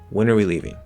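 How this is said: The voice falls at the end. The speaker is asking for missing information. "I fall at the end because I'm trying to complete the statement"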